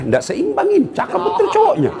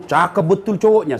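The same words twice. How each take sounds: First: Squeaky, much higher, laughing through it; high mocking teen voice. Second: Said in the usual way. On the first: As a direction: mimic a gushing schoolgirl, pitch way up. Repeats the praise, mocking the match.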